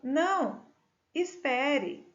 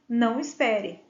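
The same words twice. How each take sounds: First: There is a pause after the first word. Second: The words run together without a pause. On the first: The listener is asked to wait. "Se eu coloco uma vírgula, eu estou pedindo para esperar" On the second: The listener is told not to wait. "Se eu tiro a vírgula, eu estou afirmando para não esperar"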